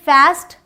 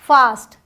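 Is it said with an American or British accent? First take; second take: American; British. First: It has the American 'a' vowel. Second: It has the British 'aa' vowel.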